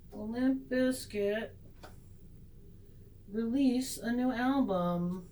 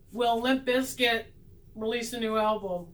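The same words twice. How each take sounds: First: Slow, measured tarot question; mock-serious retake. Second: Measured attempt at a serious question; trying to be serious. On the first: Reader asking the cards a silly question with slow mock solemnity. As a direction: draw it out slowly, with hushed mock gravity. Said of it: "Let's do that again". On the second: Reader putting the silly question to the tarot cards, trying to be serious. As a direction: ask it earnestly, slowing at the start. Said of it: "Let me try and get serious". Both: Shown as a demonstration.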